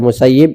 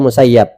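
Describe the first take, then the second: First: The last syllable has an 'i' vowel. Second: The last syllable has an 'a' vowel. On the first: "bisa dibaca Musayyib" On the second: "bisa dibaca Musayyab"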